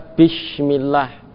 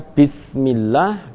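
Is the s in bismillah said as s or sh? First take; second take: sh; s. First: The word is said with an sh sound. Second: The word is said with a plain s sound.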